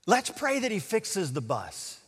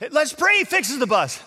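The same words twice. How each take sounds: First: Said in the usual way. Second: High, louder mocking echo; incredulous mockery. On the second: Doubter laughing at the pastor's prayer idea, mocking. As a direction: parrot it high, about to burst out laughing.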